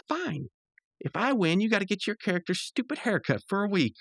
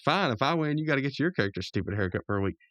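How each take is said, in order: First: High-pitched worked-up cartoon voice; Rigby. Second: Lightly voiced cool retort; Mordecai. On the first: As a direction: imitate a huffy gamer making a dare. Rigby's heated wager, acted out. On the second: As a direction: toss the dare back, close to normal voice. Mordecai answers with same wager.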